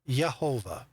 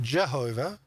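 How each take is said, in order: First: The name starts with a Y sound. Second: The name starts with a J sound. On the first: The speaker calls it right. "it should be pronounced uh, Yehovah" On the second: The speaker calls it wrong. "get that awfully incorrect because there was no J sound"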